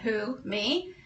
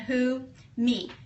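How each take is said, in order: First: The voice rises on 'me' like a question. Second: The voice stays flat on 'me' without questioning. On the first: The speaker is asking if the teacher means them. The speaker calls it right. "many of you probably read that correctly" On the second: The speaker answers the question by naming two pronouns. The speaker calls it wrong. "maybe they read it like this"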